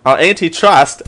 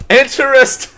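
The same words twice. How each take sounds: First: Said in the usual way. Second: High laughing exclaim. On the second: Pretend. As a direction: blurt it out through laughter. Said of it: "That sounds like a drug".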